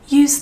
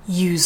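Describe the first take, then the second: First: The final z sound is weakly voiced. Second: The final z sound is strongly voiced.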